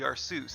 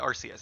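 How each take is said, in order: First: The ending sounds like the word 'Zeus'. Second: The ending does not sound like 'Zeus'. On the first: "maybe it's like Zeus, so it should be Arceus" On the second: "I always used to say Arceus"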